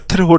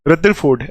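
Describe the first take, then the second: First: The middle consonant is an aspirated t. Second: The middle consonant is a d sound. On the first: The speaker calls it wrong. "ऐसे रथरफोर्ड लगेगा, लेकिन रथरफोर्ड नहीं है" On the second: The speaker calls it right. "दा बोलना है बीच में"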